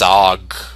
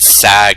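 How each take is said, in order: First: The vowel sounds like the one in 'dog'. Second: The vowel sounds like the one in 'cat'. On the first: The speaker calls it right. "it's sog" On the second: The speaker calls it wrong. "apparently I've been pronouncing it wrong. It's not sag"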